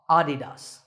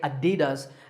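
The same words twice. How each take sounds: First: The stress is on the first syllable. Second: The stress is not on the first syllable. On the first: The speaker calls it right. "the correct pronunciation is with the stress on the first syllable" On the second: The speaker calls it wrong. "Many people say Adidas"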